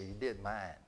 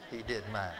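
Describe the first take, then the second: First: Said in the usual way. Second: Repeats it with a laugh; chuckling as he says it again. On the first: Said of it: "And I said". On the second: Real, not acted. Preacher to the congregation, laughing in delight.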